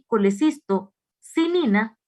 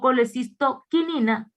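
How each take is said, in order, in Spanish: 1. La cuarta sílaba empieza con un sonido s. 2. La cuarta sílaba empieza con un sonido k. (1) "con C" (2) "con K"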